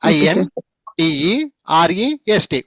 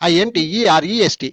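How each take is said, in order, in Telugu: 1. అక్షరాలను నెమ్మదిగా, విడివిడిగా చెప్పారు. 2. అక్షరాలను వేగంగా, చిన్న చిన్న భాగాలుగా చెప్పారు. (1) "నేను చెప్పే విధానం చూసుకో" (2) "ఇంకొంచెం ఫాస్ట్"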